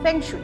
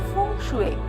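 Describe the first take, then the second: First: The first syllable sounds like 'feng'. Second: The first syllable sounds like 'fung'. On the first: The speaker calls it wrong. "Actually কথাটা মানুষ ঠিকঠাক বলেন না" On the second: The speaker calls it right. "প্রোনাউন্সিয়েশনটা হচ্ছে ফুং শুয়ে"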